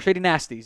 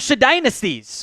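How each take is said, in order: First: The name is read as shady nasties. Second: The name is read as shady dynasties.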